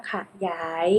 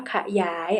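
First: ขยาย split as ขะ-หยาย; syllable-by-syllable reading. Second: Said in the usual way. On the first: Shown as a demonstration. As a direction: sound out ขยาย as ขะ, then หยาย. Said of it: "อ่านว่าขยาย". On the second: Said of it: "คำว่าขยาย".

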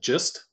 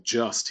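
First: "just" with its vowel said wrong, as imitated; mimicked mispronunciation. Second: Said in the usual way. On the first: Teacher showing how the software misread a word, imitated mispronunciation. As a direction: copy the voice's off-sounding vowel in "just". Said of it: "he said just". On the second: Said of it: "instead of saying just".

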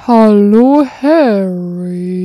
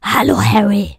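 First: Big booming Hagrid greeting, much louder. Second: Breathless whispered greeting; whispered Hagrid take. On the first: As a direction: boom it out like the giant gamekeeper. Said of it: "wie hat Hagrid nochmal gesprochen?". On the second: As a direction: hush it like a secret. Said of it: "dann such dir mal was aus". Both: Acted.

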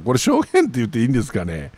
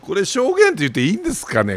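First: Said in the usual way. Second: Pitched way up in disbelief, quick; incredulous high query. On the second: Real, not acted. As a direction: ask it sharply higher, amazed.

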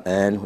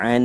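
First: ऐन as a plain vowel, without the throat sound; softened ayn. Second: ऐन with a clear throat-made Arabic ayn; correct Arabic ayn. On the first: Teacher showing a learner's slip, ऐन with no throaty ayn. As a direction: say ऐन like an Urdu "ain", throat relaxed. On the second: Teacher showing listeners the proper letter, ऐन with a throaty ayn. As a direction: say ऐन from the middle of the throat. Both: Shown as a demonstration. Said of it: "वाज़े ऐन नहीं निकलता".

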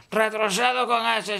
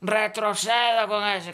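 First: "Retrocedo" with a lisped c. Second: "Retrocedo" with a plain s, slow; s sound. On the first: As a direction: say "Retrocedo" with a th-sound. ("Retrocedo" con la c ceceada) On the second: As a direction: say "Retrocedo" with an s, slowly. ("Retrocedo" con ese, despacio) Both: Shown as a demonstration. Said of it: "táchale la C".

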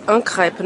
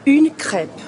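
First: Un crêpe with a nasal un, marked as the error; wrong masculine un crêpe. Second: Une crêpe slow, with a clear feminine une; slow correct une crêpe. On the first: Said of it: "isso é completamente errado". (un crêpe dito errado, com artigo masculino) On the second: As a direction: stretch out une crêpe, stressing une. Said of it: "É une crêpe". (une crêpe devagar, com une bem marcado) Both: Shown as a demonstration.

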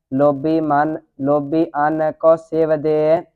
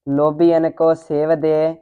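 First: Hesitant restart, ਲੋਭੀ apart from ਅੰਨ; separated pronunciation. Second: ਲੋਭੀ ਅੰਨ linked as one word; joined pronunciation. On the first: Pupil reciting to teacher, ਲੋਭੀ ਅੰਨ said apart. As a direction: break between ਲੋਭੀ and ਅੰਨ. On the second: Pupil repeating the teacher's correction, ਲੋਭੀ ਅੰਨ said joined. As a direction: recite ਲੋਭੀ straight into ਅੰਨ. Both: Real, not acted. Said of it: "ਇਕੱਠਾ ਹੀ ਉਚਾਰਨ ਕਰਨਾ ਹੈ".

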